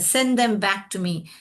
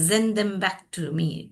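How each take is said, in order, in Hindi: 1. पहला शब्द S ध्वनि से शुरू होता है। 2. पहला शब्द Z ध्वनि से शुरू होता है।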